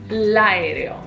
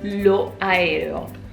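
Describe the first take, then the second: First: The article's O is dropped and joined on. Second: The article keeps its final O before the noun. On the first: The speaker calls it right. "We drop the O and we say l'aereo" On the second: The speaker calls it wrong. "we do not say lo aereo"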